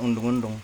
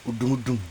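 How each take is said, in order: First: An 'n' sound comes before each 'd'. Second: No 'n' sound comes before each 'd'. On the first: The speaker calls it wrong. "Tapi bilangnya bukan undung-undung" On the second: The speaker calls it right. "dialeknya gitu"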